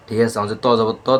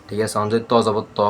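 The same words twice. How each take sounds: The two takes are said the same way.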